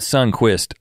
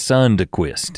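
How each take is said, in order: First: The D sound is dropped, like sunkissed. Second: The D sound is clearly pronounced. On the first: The speaker calls it wrong. "It's not Sunquist like Sunkissed" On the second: The speaker calls it right. "I always make sure to say the D"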